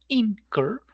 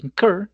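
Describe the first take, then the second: First: The stress is on the first syllable. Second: The stress is on the second syllable. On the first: The speaker calls it wrong. "no incur" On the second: The speaker calls it right. "se pronuncia incur"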